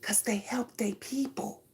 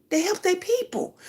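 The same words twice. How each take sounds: First: Breathy whispered aside. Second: Higher, stressing "their" with a falling close; emphatic repeat. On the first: Telling her audience about loyalty, whispered. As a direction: drop to a bare whisper, like a secret. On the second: Telling her audience about loyalty, emphatic and higher. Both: Real, not acted.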